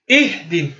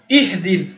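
Both takes have the same delivery.

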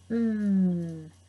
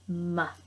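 First: The m sound is held as a hum. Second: The m sound is cut short. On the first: The speaker calls it right. "We have to say mmm" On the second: The speaker calls it wrong. "do not say M, M. Wrong sound"

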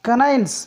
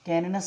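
First: The middle syllable has an 'eye' vowel. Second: The middle syllable has a short 'ee' vowel. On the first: The speaker calls it right. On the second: The speaker calls it wrong. "ಕ್ಯಾನಿನಸ್ ಅಲ್ಲ"

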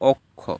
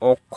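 First: The first vowel sounds like 'o'. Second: The first vowel sounds like 'aw'. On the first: The speaker calls it right. "আমরা বলি অক্ষ" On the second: The speaker calls it wrong. "আমরা কি অক্ষ বলি না"

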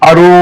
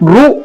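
First: It is said as 'aru' with a leading vowel. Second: It is said as a bare 'ru'. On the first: The speaker calls it right. "కానీ దీన్ని అరు అరు అని పలకాలి" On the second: The speaker calls it wrong. "చాలా మంది మనం పలుకుతున్నప్పుడు ఇవి రు అని పలుకుతారు"

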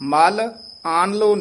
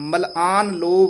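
First: The word is split with breaks between parts. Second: The word is said joined, without a break. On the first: The speaker calls it wrong. "मल आन लो नहीं कहना है" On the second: The speaker calls it right. "मलआन इकट्ठा बोल देना है"

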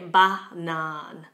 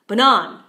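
First: The stress is on the first syllable. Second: The stress is on the second syllable. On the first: The speaker calls it right. "I didn't say banan" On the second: The speaker calls it wrong. "if I put a stress on the second syllable of the word banan, I will say it like this"

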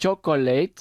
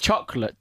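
First: The word is said with three syllables. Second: The word is said with two syllables. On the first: The speaker calls it wrong. "We don't say chocolate" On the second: The speaker calls it right. "es con dos sílabas"

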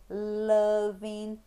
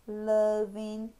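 No difference in how they are said.

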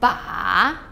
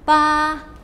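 First: The pitch dips low, then rises. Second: The pitch stays high and level.

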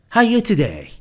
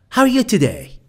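The two takes are said the same way.

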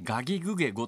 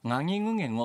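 First: The g sounds are plain and hard. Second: The g sounds are nasal, like ng. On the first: "普通の濁音" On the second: "微濁音っていうやつで、ちょっと鼻にかかって抜ける感じ"

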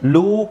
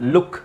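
First: The vowel is long and drawn out. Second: The vowel is short and clipped. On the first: The speaker calls it wrong. "ಲೂಕ್ ಅಲ್ಲ" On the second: The speaker calls it right. "ದೀರ್ಘ ಇಲ್ಲ"

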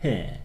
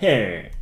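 First: It is said in a British accent, no r. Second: It is said in an American accent, r-colored.

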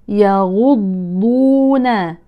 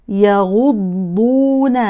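Both takes have the same delivery.

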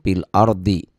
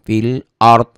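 First: The phrase ends with a short i vowel. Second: The phrase ends on the consonant d. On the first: The reader continues without stopping. "Kalau diterusin" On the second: The reader stops at this point. "Jangan ardi ya"

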